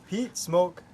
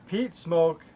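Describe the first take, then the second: Both takes have the same delivery.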